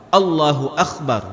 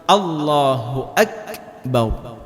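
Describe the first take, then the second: First: Allahu akbar with the k turned into a rasping kh, akhbar; teacher showing the mistaken akhbar; wrong akhbar. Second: Slow chanted Allahu akbar with a clear stopped k in akbar; correct takbir. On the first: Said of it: "Jangan dibaca Allahu akbar". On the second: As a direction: draw out Allahu, then a crisp breathy k in akbar. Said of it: "Seperti itu". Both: Shown as a demonstration.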